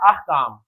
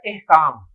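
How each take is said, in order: First: The first vowel sounds like 'a'. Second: The first vowel sounds like 'e'. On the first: The speaker calls it right. "लफ्ज है अहकाम" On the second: The speaker calls it wrong. "एहकाम लफ्ज ही नहीं है"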